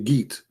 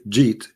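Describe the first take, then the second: First: It starts with a hard Egyptian G. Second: It starts with a soft J sound.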